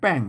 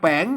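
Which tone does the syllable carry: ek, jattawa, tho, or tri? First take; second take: ek; jattawa. First: The syllable is said with the ek tone. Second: The syllable is said with the jattawa tone. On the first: "ใส่ไม่เอกแป้ง แป้งเสียงเอก" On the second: "ใส่ไม่จัดว่าแป้ง"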